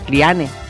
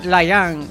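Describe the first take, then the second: First: The name is pronounced the German way. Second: The name is pronounced the English way. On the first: The speaker calls it right. "que es alemana" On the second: The speaker calls it wrong. "decían Lian"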